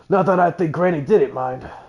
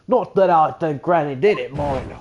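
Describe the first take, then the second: First: It is said with a mild Cockney accent. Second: It is said with a strong Cockney accent. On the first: The speaker calls it wrong. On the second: The speaker calls it right.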